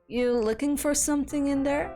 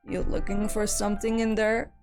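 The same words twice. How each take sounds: First: The line is read in a normal voice. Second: The line is read in a deep voice.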